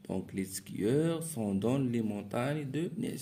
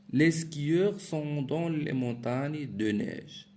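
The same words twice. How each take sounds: First: Said in the usual way. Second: Slow, higher and louder, read out to the class; reading aloud. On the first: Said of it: "teacher repeats sentence in own voice". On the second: Shown as a demonstration. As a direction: read the example sentence out clearly and slowly. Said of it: "teacher reads the exercise sentence". (lecture lente et appuyée à voix haute)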